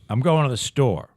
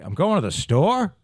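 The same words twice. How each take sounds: First: The voice falls at the end like a statement. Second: The voice rises at the end like a question. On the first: The speaker is announcing a plan. "Now that's a statement" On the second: The speaker is asking whether to go. "which is sort of a question"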